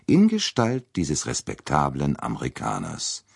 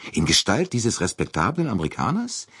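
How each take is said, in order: First: "In Gestalt dieses respektablen Amerikaners" as a measured, falling statement; deliberate affirmation, "Amerikaners" settling downward; firm confirmation. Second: "In Gestalt dieses respektablen Amerikaners" as a higher, rising question; doubting question. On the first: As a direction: echo it back with certainty, letting "Amerikaners" fall. Confirms by repeating the question's words. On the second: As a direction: ask incredulously, lifting the pitch at the end of "Amerikaners". Doubting question, echoed back as answer. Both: A narrator's reading.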